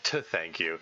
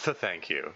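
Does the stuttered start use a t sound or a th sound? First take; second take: t; th. First: The stutter begins with a t sound. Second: The stutter begins with a th sound. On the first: The speaker calls it wrong. "rather than t hyphen th" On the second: The speaker calls it right. "the th hyphen th"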